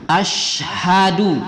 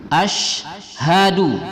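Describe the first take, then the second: The two takes are said the same way.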